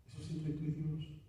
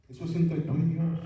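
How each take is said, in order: First: Much softer, intimate, stress moved to "y"; soft echo leaning on "y Dios"; hushed repeat. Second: Louder and higher, punching "entre"; ringing preacher's call on "entre"; emphatic declaration. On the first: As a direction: say it privately to one listener. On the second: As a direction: proclaim it to the whole church. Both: Acted. Preacher's emphatic then hushed repeat.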